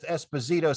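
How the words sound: The name is said the common English way. This is the version most people use. "he goes with Esposito since that's what most people say"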